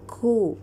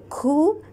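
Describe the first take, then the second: First: The k has a firm stop and some air. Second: The k is followed by too much air. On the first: The speaker calls it right. "the sound is there, the air is there, the shidda is also there" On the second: The speaker calls it wrong. "then there is too much air"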